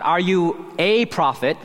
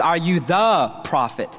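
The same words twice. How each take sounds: First: "a" said as a long "ay", punched and slow; stress on A. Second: "the" said as a strong "thuh", punched and held; stress on THE. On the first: Preacher contrasts the question not being asked, stress on "a". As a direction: lean hard on "a", pronounced like the letter A. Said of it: "The question is not". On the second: Preacher clarifies the question put to John, stress on "the". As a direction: lean hard on "the", setting it apart before "prophet". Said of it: "The question is". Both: Shown as a demonstration.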